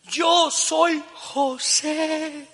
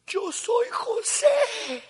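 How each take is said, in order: First: Very slow, high, drawn-out reveal; tearful. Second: Very slow, high, tearful cry. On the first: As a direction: stretch each word through tears. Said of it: "la tercera vez que lloró". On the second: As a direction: sob the words out, breaking. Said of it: "se puso a llorar a gritos". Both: Retold or imitated.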